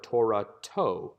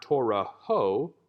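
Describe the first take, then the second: First: "Torah to" with a crisp "t" before the final "o"; "Torah to": hit the "t" of the tav clearly at the end; "Torah to", closing with a distinct "to". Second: "Torah ho" said slowly, ending in an open "ho" sound; "Torah ho" drawn out, closing on "ho"; Torah with hey ending. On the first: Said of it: "with a tav". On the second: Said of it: "with a hey". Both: Shown as a demonstration.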